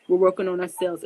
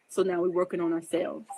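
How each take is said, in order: First: "We're working on ourselves" repeated louder, pressed home; louder emphatic restatement. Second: Said in the usual way. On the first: Real, not acted.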